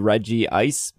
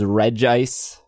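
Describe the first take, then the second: First: An "ee" vowel comes before "ice". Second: No "ee" vowel comes before "ice". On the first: The speaker calls it wrong. "you would think that because it's Reggie Steel, Reggie Gigas, Reggie Rock, that it would be Reggie Ice" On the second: The speaker calls it right. "but it is Regice because there's no double I"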